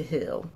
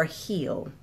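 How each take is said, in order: First: "heal" said like "hill", short vowel; "heal" rhymes with "fill"; Philly heal. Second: "heal" with a long clear ee vowel; "heal" said like "heel", not "hill"; careful heal. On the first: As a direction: let "heal" come out as "hill", Philly style. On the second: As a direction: correct yourself, stretch the ee in "heal". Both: Shown as a demonstration. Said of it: "I said heal like it's a hill".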